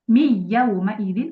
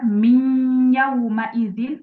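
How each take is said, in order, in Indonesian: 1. Bunyi yang menyatu hanya keluar lewat mulut. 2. Bunyi n yang menyatu sebagian keluar lewat hidung. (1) "salahnya adalah dibaca semuanya dia eh, al jauf" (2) "lima puluh persen dia masuk ke hidung, lima puluh persennya dia masuk ke al-jauf"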